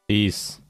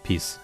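First: The word is said loudly and forcefully. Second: The word is said softly and gently. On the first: The speaker calls it wrong. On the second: The speaker calls it right.

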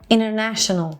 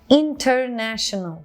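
First: The t after the n is dropped entirely. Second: The t after the n is clearly pronounced. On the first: "Oradaki tığı attık tamamen" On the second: "international değil de"

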